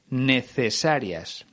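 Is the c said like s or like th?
th. The c is said as a th sound.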